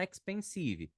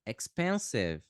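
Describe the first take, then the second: First: "expensive" ending in a clear SEE-vee; learner's-mistake "expensive", ex-pen-SEE-vee; wrong Brazilian pronunciation. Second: "expensive" stressed on PEN, ending on v; slow ex-PEN-siv for "expensive"; no vowel after the v in "expensive"; correct English pronunciation. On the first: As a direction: add a final ee to "expensive". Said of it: "Não fala expensive". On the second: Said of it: "Fala expensive". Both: Shown as a demonstration.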